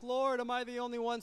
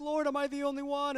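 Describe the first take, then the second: First: High, whiny plea; a discouraged believer whimpering to God, pitched up; mock crying to the Lord. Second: High, whiny plea to God; mock crying to the Lord. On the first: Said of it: "crying, like". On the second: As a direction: play Elijah wailing in self-pity, pitched up. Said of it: "he's crying to the Lord".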